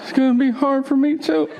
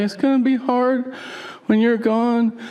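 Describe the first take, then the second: First: High, overacted mock sobbing voice; badly faked sadness. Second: High, drawn-out weepy imitation; mock crying. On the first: Husband leaving his wife, echoing her with hammed-up fake sorrow. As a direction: ham up the heartbreak as an acting exercise. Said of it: "like, an acting exercise". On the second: Wife to husband leaving for the road, mock weepy. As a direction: wail it like a tearful, clingy wife. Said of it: "she cries when I leave".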